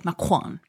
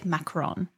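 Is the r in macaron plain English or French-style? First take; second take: French; English. First: The r is a French-style throaty r. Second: The r is a plain English r. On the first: "If you want to be very authentic about it, you could say macaron with like the little" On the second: "We Pittsburghers should say macaron"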